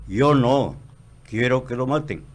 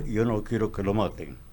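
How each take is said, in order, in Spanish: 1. Hay una pausa justo después de "no". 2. Fluye sin pausa después de "no".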